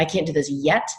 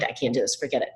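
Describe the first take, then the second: First: Mildly hopeful, lifting on 'yet'. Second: Low, dismissive mock resignation; mind made up, giving up. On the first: Acted. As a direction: leave it open with a rising 'yet'. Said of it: "The brain hears hope". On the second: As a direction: imitate someone quietly giving up. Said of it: "The brain has made up the mind".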